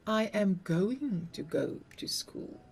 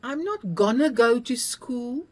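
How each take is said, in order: First: "going to" said in full, two clear words; proper going to. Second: "gonna" slurred as one quick word; casual gonna. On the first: Teacher correcting gonna to the careful "going to". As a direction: sound out "going to" fully. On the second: Teacher acting out the slangy "gonna" learners use. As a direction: say "gonna" loose and sloppy. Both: Shown as a demonstration.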